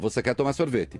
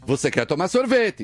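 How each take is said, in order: First: It ends with a flat, falling statement tune. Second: It is said with an emphatic exclamatory tune.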